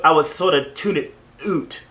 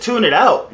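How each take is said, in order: First: Mock Canadian with "out" said as "oot"; badly faked Canadian accent. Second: Said in the usual way. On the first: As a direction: put on a hammy Canadian accent, drawing out "out" as "oot". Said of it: "That was a bad Cana-, Canadian impression".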